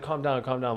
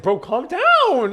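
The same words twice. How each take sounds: First: Soft, lower mock reassurance; quiet reassurance. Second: High, drawn-out mock plea; exasperated reassurance. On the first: Customer to flustered server, quietly soothing. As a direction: retell a quick, quiet calm-down. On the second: Customer to apologizing server, exaggerated exasperated pleading. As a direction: stretch it slowly, pitched way up.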